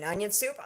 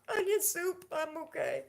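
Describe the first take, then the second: First: Said in the usual way. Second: Much higher hammed-up sob on "Onion soup"; mock crying. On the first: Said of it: "Onion soup. (cried take)". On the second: Friends' running joke, she answers with mock crying. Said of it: "running joke with my friends".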